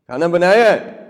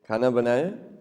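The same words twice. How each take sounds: First: It is asked in a harsh, demanding tone. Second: It is asked in a gentle, polite tone.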